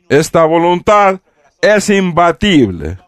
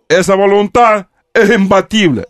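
First: The s sounds are clearly pronounced. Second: The s sounds are dropped or weakened. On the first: "Не es imbatible" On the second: "как андалусийцы... вместо «с»"

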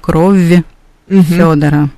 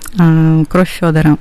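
First: The sounds at the word boundary are pronounced separately. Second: The sounds at the word boundary merge into one. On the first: The speaker calls it wrong. "Мы не говорим «крови Федора»" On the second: The speaker calls it right. "Мы говорим там один звук"

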